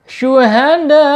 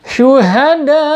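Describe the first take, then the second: No difference in how they are said.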